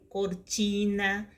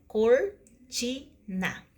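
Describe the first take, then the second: First: Said in the usual way. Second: "cortina" as cor, ti, na, a gap after each; syllable by syllable. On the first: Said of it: "Então, fica cortina". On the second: Shown as a demonstration. Teacher showing a three-syllable word, "cortina" broken up by pauses. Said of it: "Então, fica".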